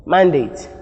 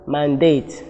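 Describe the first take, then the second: First: MANDATE with the weight up front, MAN-date; noun stress. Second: MANDATE with the weight at the end, man-DATE; verb stress. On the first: Teacher repeating the noun form, MAN-date stressed on MAN. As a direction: stress the first syllable of "mandate". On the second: Teacher repeating the verb form, man-DATE stressed on DATE. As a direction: stress the second syllable of "mandate". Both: Shown as a demonstration. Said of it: "difference in their stress pattern".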